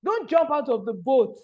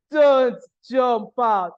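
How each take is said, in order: First: Said in the usual way. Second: "Don't jump out" drawn out slow and louder, "Don't" hit hard; slow emphatic plea. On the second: Shown as a demonstration. Speaker urging her audience not to quit, slow and louder on "Don't". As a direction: lean on "Don't" and stretch every word.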